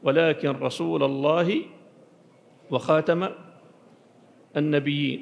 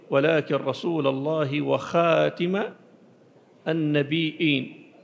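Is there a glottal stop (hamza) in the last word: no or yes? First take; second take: no; yes. First: The last word has no glottal stop. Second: The last word has a glottal stop.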